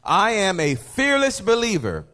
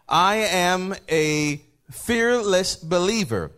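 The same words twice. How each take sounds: First: It is said in a strong, commanding manner. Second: It is said in a plain, ordinary manner.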